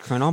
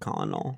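First: It sounds like 'kernel', with two syllables. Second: It sounds like the spelling, 'col-o-nel'. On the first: This is the accepted pronunciation. "Even I know it's colonel" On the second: This is how it sounds when read from the spelling. "if I'm reading a book and it says it like that, I pronounce it in my head colonel"

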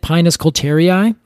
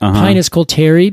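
First: The name ends with two final vowel sounds. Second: The name ends with one final vowel sound. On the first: The speaker calls it wrong. "I always pronounced it Pinus coulterii. And that's not it" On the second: The speaker calls it right. "It's funny when you said that"

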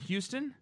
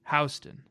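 First: Houston is said the usual nationwide way. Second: Houston is said the New York way. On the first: This is how the rest of the country says it. "Everywhere else in the country, you pronounce it Houston" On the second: This is the local New York name for the street. "here in New York, we call it Houston"

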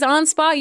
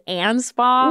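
First: The name is pronounced the original German way. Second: The name is pronounced the Americanized way. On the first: This is how the name should technically be said. "It's I think technically it is Anspaugh" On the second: This is how the family actually says the name. "we're like just been so Americanized that it is Anspaugh"

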